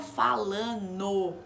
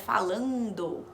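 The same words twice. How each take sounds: First: The D sound is cut out. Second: The D sound is fully pronounced. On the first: This is how it comes out in fast speech. "Quando fala rápido, acaba saindo um" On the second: This is the correct form. "Mas o correto seria falando"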